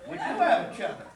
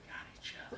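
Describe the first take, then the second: First: Said in the usual way. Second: Breathy whispered echo. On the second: Acted. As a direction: whisper it tenderly to him. Repeated tender line whispered.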